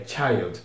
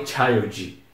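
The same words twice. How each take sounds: First: Put-on "child" lower and softer, the D barely released; subtle final D. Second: Put-on "child" with an added vowel, CHAI-ou-djee; heavy final D. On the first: Teacher corrects students, "child" with a very light final D. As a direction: let the D of "child" fade with no vowel after it. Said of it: "Bem sutil a letra D". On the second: Teacher warns students off this, "child" ending in a heavy 'djee'. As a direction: weigh down the last letter of "child" into 'djee'. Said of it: "Não falem child". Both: Shown as a demonstration.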